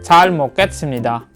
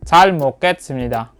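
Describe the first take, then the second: Both takes have the same delivery.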